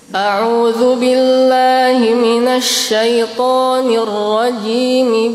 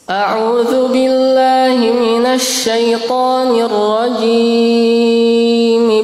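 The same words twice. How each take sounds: First: The vowel in rajim is held only briefly. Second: The vowel in rajim is drawn out very long. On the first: The speaker calls it right. "Cukup ini dibaca dua harakat saja" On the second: The speaker calls it wrong. "ini caranya kurang tepat"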